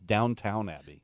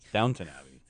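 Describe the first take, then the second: First: The second syllable sounds like a full 'town'. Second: The second syllable is reduced to a weak 'tun'. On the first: The speaker calls it wrong. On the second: The speaker calls it right.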